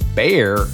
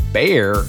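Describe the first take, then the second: First: The name sounds like one syllable, 'bear'. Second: The same.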